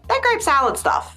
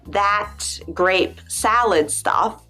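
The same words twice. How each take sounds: First: Some final consonants are dropped in fast speech. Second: Every final consonant is clearly pronounced. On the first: "we just throw it out there like" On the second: "It's too much effort to say"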